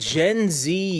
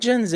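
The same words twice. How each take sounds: First: Z is pronounced 'zee', American style. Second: Z is pronounced 'zed', Canadian style.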